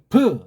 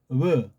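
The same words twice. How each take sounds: First: The first consonant is a hard, full stop. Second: The first consonant is a softer, gentler sound. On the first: "점까지 찍어서 이건 아주 완전한 소리예요" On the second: "더 부드럽고, 더 부드러운 소리예요"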